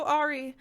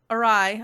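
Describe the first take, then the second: First: "awry" said as AW-ree; mispronounced awry. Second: Said in the usual way. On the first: Real, not acted. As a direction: say "awry" wrongly, rhyming with sorry. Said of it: "I meant to say awry". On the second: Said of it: "I meant to say awry, sorry".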